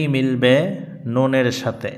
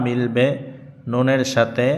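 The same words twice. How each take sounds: The two takes are said the same way.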